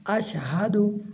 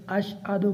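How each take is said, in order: First: Measured "अशहदु" as "ash-hadu"; h fully sounded. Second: "अशहदु" said quickly as "ash-adu"; dropped h. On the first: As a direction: give the h in "अशहदु" its own clear sound. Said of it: "आ को पढ़ना है यहाँ पर". ("अशहदु" में हा साफ़ पढ़कर) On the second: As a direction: leave the h out of "अशहदु". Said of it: "आ नहीं पढ़ते". ("अशहदु" में हा गिराकर) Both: Shown as a demonstration.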